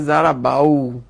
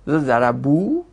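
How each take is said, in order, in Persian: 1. مصوت قبل از واو پایانی 'a' است. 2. مصوت قبل از واو پایانی 'u' است. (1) "حالا اگه فتحه گرفته بشه میشه چی؟ تلفظش مشکل میشه" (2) "تناسب داره که قبل واو ضمه گرفته بشه"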